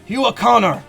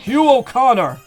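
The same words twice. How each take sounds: First: The name is yelled at a faster pace. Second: The name is yelled at a slower pace.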